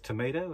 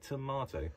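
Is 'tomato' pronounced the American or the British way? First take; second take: American; British. First: It is said with an American pronunciation. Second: It is said with a British pronunciation. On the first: This is how an American says it. "She's from the US and says tomato" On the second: This is how a British speaker says it. "and I say tomato"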